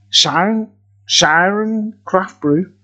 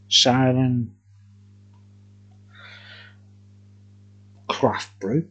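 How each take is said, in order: First: Slow deliberate naming. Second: Said in the usual way. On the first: Shown as a demonstration. Reviewer repeating the brewery name for viewers, slow and deliberate. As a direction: stretch out "Siren Craft Brew" slowly, word by word.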